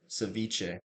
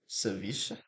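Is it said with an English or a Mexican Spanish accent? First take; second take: English; Mexican Spanish. First: It is said with an English accent. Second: It is said with a Mexican Spanish accent. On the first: "the other one's gonna be the English version" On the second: "the first one I say is gonna be Mexican version"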